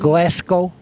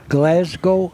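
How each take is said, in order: First: The S in the middle is hard. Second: The S in the middle is soft. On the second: "A soft S?"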